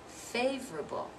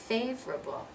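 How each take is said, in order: First: It is said with three syllables. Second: It is said with three syllables.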